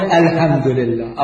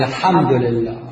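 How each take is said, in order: First: الحمد لله with a plain h sound; الحمد لله بهاء; mispronounced ḥa. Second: الحمد لله with a proper throaty ḥ; الحمد لله بحاء صحيحة; correct ḥa. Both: Shown as a demonstration. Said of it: "يقول الحمد لله".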